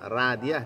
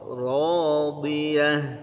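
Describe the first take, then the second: First: The r sound is light and thin. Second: The r sound is heavy and thick. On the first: The speaker calls it wrong. "bukan radiyah" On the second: The speaker calls it right. "Ra-nya tebal"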